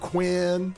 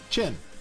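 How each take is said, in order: First: The name begins with a 'kw' sound. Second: The name begins with a 'ch' sound. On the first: The speaker calls it wrong. "everybody was calling him Quinn" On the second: The speaker calls it right. "just call him Chin. His name is Chin"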